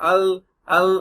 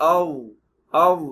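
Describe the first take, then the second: First: The consonant sounds like a plain L. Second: The consonant is pressed and heavy. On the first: The speaker calls it wrong. "அல் அல் அப்படின்னு சொல்லுவாங்க... அதெல்லாம் தப்பு" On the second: The speaker calls it right. "ஆவ் ஆவ் அப்படி சொல்லணும்"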